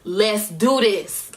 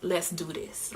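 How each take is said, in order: First: Slow, drawn-out determination; firm pump-up. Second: Quiet resolve. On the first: Singer psyching herself up before the show, determined. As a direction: stretch out each word with resolve. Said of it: "that type of vibe". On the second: Singer settling her nerves before the show, quiet resolve. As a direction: say it softly, psyching yourself up. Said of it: "I kinda shifted into a". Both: Retold or imitated.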